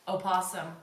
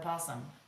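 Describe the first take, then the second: First: The word begins with a sounded O vowel. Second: The word begins directly with a p sound.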